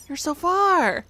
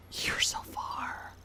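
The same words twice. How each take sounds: First: Said in the usual way. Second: Slow breathy whisper. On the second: Shown as a demonstration. Streamer whispering to the game. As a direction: breathe it out in a hush, drawn out.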